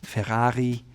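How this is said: It is said with a German accent. "Germans may say"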